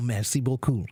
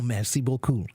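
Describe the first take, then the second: First: It is said with a French-sounding pronunciation. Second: It is said with a French-sounding pronunciation.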